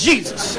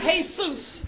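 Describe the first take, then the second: First: The name is said with English sounds. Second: The name is said with Spanish sounds. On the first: This is how an employer reads the name. "on the job application, it comes across as Jesus" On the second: This is how the family says the name. "I know you pronounce that crap Jesus"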